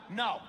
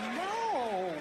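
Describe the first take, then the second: First: It is a firm, serious refusal. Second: It is a playful, teasing refusal.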